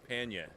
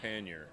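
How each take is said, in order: First: It is said with no final r sound. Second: It is said with a full final r sound. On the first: "alternate pronunciation is panya, which would be New England" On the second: "I say pannier"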